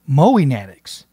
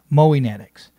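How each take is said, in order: Both takes have the same delivery.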